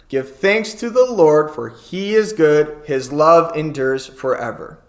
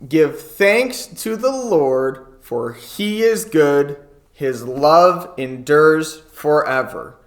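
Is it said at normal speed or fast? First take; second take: fast; normal. First: It is said faster than normal. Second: It is said at a normal speed.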